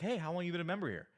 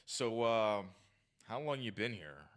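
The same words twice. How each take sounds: First: Quick, higher-pitched upbeat opener; playful, friendly. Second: Tense, standoffish. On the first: Good example of approaching a woman, playful and friendly. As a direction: open lightly with a nice, uppity tonality. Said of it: "Playful, nice, friendly tonality". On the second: Bad example of approaching a woman, tense and standoffish. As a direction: demonstrate a stiff, stand-offish approach. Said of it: "with tense body language and, and kinda stand off". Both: Shown as a demonstration.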